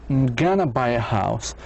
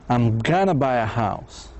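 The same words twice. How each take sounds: The two takes are said the same way.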